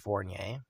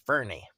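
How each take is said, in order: First: The surname is said as Fournier. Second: The surname is said as Fernie. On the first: The speaker calls it right. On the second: The speaker calls it wrong.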